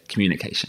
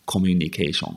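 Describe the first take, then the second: First: Communication with English stress, fast; British English pronunciation. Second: Communication as ko-myu-ni-ke-shon, flat Japanese syllables; Japanese katakana pronunciation. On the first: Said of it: "I say communication". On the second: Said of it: "I don't say". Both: Shown as a demonstration.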